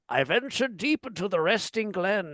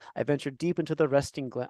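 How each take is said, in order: First: It is read in a dramatic put-on voice. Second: It is read in a plain voice.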